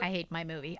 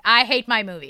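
First: Said in the usual way. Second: Louder, punched second take; louder repeat. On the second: Real, not acted. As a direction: belt it the second time. Repeating a joke line.

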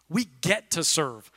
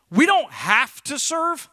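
First: Softer, lower "We get to serve" with "get" lifted; gentle correction stressing "get". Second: Slow, weighted "don't" in "We don't have to serve"; drawn-out emphasis on "don't have to"; stress on don't. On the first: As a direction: quietly land the word "get". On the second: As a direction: lean hard on "don't", slowly. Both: Shown as a demonstration.

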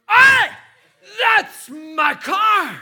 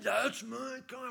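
First: Loud, high yell, stretched slow; shouting. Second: Said in the usual way. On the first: Retold or imitated. Yelling at car thieves, full-throated shout. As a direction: bellow it at the thieves. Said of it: "I shouted".

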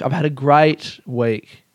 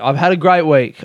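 First: Slow, deliberate "great week"; slow measured "I've had a great week". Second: Brighter, louder "great week"; punchy upbeat "I've had a great week". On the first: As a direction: draw it out slowly. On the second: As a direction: sell "great" with energy. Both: Shown as a demonstration.

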